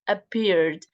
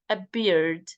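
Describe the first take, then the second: Both takes have the same delivery.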